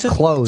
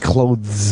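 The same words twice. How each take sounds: First: The word is said without a 'th' sound. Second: The word is said with a 'th' sound. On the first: The speaker calls it right. "You're not supposed to say the T H in clothes" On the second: The speaker calls it wrong. "You don't say clothes"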